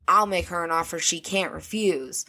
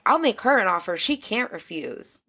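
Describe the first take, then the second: First: It sounds menacing and threatening. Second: It sounds generous and friendly.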